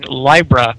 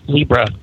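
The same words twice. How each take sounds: First: The first vowel matches the start of librarian. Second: The first vowel differs from the start of librarian. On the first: Someone else says it this way. "you pronounced that sign Libra. I've never heard it pronounced that way" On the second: This is the usual way the speaker hears it. "I've always heard it pronounced Libra"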